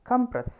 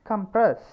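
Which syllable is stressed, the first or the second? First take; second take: first; second. First: The stress is on the first syllable. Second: The stress is on the second syllable. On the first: "First syllable" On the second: "Second syllable"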